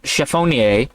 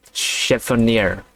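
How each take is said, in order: First: "chiffonier" with a French-style "-nee-ay" ending; corrected pronunciation. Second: "chiffonier" read slowly, ending in an anglicized "-neer"; unsure pronunciation. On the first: Reader copying the looked-up word, "chiffonier" ending in "-ay". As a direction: say "chiffonier" as sha-foh-nee-AY, lifting at the end. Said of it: "Close enough. All right". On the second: Reader guessing at an unknown word, "chiffonier" ending like "near". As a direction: tentatively sound out "chiffonier" as shif-uh-NEER. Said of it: "How do you say this word?". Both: Shown as a demonstration.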